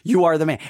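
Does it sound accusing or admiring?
accusing. It sounds like an accusation of guilt.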